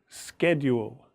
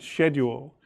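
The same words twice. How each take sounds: First: The word is said in an American accent. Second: The word is said in a British accent. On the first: "But if you're American, then you will say schedule" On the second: "If you're English like I am, you will say schedule"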